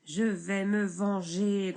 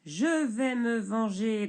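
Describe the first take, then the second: First: Grondé lentement, plus fort; grondement. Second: Grogné lentement, plus fort; grognement. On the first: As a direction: menace sourde, lentement. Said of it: "gronde le bûcheron". (le bûcheron gronde sa vengeance) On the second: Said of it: "grogne le bûcheron". (le bûcheron grogne sa vengeance) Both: Acted.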